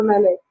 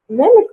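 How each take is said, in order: First: Malik as meh-LEH, final k barely sounded; second variant of name. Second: Malik as MEL-ik, first syllable stronger and higher; first-syllable stress. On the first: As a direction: say Malik with an open, softened ending, meh-LEH. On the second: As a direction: say Malik with the weight up front, MEL-ik. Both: Shown as a demonstration. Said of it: "Malik or Malik?".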